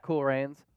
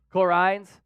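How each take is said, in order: First: Said in the usual way. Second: Aussie vowels on "Cool Rains", Rains like "rines"; Australian accent. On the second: Shown as a demonstration. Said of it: "I'm saying that in the Australian voice".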